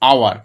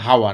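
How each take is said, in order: First: The word starts directly with a vowel sound. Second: The word starts with an audible h sound. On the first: The speaker calls it right. "আমরা কি বলি? আওয়ার" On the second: The speaker calls it wrong. "আমরা কেউ বলি না হাওয়ার"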